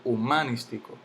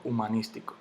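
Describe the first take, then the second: First: Humanístico stressed on MA, hu-MÁ-nistico; wrong early stress. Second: Said in the usual way. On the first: Shown as a demonstration. Teacher rejecting a wrong version, humanístico stressed on MA. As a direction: lift MA in humanístico. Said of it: "yo no digo humanístico". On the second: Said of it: "yo digo humanístico".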